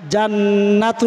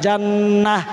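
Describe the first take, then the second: First: The word ends with a t-u sound. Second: The word ends with a soft h sound. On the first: The word is read as written, without stopping. "জান্নাতু লেখা আছে" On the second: The reader stops on the word. "থামলে শেষের হরফ গোলতা হা উচ্চারণ হয়ে যাবে"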